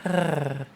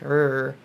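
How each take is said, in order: First: A purring, cat-like R sound. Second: A smooth English-style R sound. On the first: "the purring noise, which is like a R" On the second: "the normal English like R"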